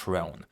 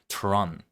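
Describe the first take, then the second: First: It has a long 'o' like 'throne'. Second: It has a short 'o' like 'tron'. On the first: The speaker calls it wrong. "Tron, not Throne" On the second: The speaker calls it right. "Tron, not Throne"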